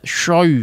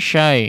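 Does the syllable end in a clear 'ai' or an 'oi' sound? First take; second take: oi; ai. First: The vowel sounds like a rounded 'oi'. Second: The vowel sounds like a clear 'ai'. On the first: The speaker calls it wrong. "Sehingga mempengaruhi si huruf linnya ya" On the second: The speaker calls it right. "ya sukun yang menjadi huruf lin di sini diperjelas pengucapannya"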